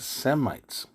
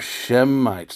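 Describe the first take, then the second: First: The word begins with a plain s sound. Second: The word begins with an sh sound. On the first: The speaker calls it wrong. "not an S E M" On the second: The speaker calls it right. "an S H enunciation"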